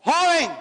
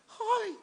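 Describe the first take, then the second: First: Loud, high "Joven"; commanding call. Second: Feeble call. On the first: Jesus calling the dead young man, loud commanding call. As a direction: call "Joven" out with full force. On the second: Preacher showing how a believer's speech betrays him, feeble high call. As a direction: call "Joven" without any force. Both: Shown as a demonstration. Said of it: "hasta la forma de hablar de un cristiano lo delata".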